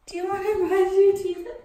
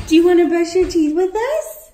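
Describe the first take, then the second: First: Said in the usual way. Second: Calling the dog. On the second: Real, not acted. Asks the dog loudly.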